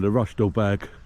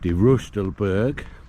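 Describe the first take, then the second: First: The name is said with an English pronunciation. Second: The name is said with a German pronunciation. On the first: "in English" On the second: "do it in German"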